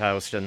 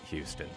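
First: The name has the New York pronunciation. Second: The name has a different, non-New York pronunciation. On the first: "shows you my New York roots there at this point, because that's how you pronounce it" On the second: "Some of you might pronounce it Houston"

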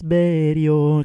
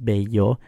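First: The middle consonant sounds like an R. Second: The middle consonant sounds like an L. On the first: "kind of like with an R" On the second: "obviously bello is B-E-L-L-O, so it's bello"

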